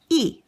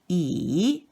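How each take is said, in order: First: The syllable is said with the fourth tone. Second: The syllable is said with the third tone. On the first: "accent number four" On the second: "accent number three"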